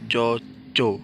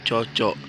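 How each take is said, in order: First: The word ends in a glottal stop. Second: The word ends in a velar k sound. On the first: The word as used in the phrase for farming. "cocok yang kedua diucapkan dengan K hamzah" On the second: The word on its own. "cocok yang pertama diucapkan dengan kata velar"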